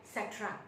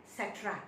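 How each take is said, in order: Both takes have the same delivery.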